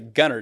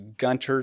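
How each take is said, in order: First: The t sound in the middle is silent. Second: The t sound in the middle is pronounced.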